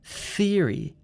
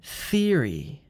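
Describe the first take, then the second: First: The word begins with a th sound. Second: The word begins with a th sound.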